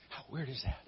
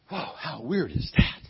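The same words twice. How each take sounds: First: Softer, lower mock bafflement; quiet retold disbelief; musing to himself. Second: Retold disbelief, full voice; mock amazement. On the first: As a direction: repeat it under your breath, as if puzzled. Retold Pharaoh repeating it to himself. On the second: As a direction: marvel at it, leaning on THAT. Retold Pharaoh reacting, first take.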